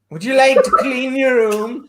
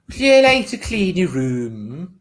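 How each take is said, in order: First: Much higher, louder Northern Irish voice, laughing through it; a strained Northern Irish mother, half-laughing; Northern Irish accent. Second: Slow, louder attempt at an Irish accent, the question rising. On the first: Pretend. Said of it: "Northern Irish". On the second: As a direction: try an Irish mother's voice, not quite landing it. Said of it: "Irish accent".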